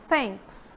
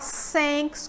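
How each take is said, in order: First: It begins with a breathy tongue-between-teeth sound. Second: It begins with a hissing S sound. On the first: The speaker calls it right. "prender um pouquinho a língua entre os dentes" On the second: The speaker calls it wrong. "Você também não fala thanks como se fosse um S"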